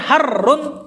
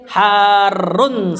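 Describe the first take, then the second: First: The word is said with a short sound. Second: The word is said with a long sound. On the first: It names only heat in the abstract. The speaker calls it wrong. "kalau dibaca harun pendek" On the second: It names something that is hot. The speaker calls it right. "bacanya harus tetap panjang"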